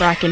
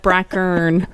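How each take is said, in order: First: The second syllable has no R sound. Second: The second syllable has an R sound. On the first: "I like Bracken better" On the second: "there's an R there"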